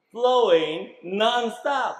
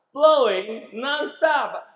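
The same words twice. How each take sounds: First: "Flowing non-stop" slow and louder, stress on "Flowing"; slow emphasis. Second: "Flowing non-stop" repeated slow, higher and louder, "Flowing" stressed; higher, slow emphasis. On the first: Preacher explaining living water, "Flowing" stressed slowly. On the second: Preacher repeating for the congregation, "Flowing" stressed higher and louder. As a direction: lift it and lean on "Flowing". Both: Shown as a demonstration. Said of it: "Now the emphasis is on".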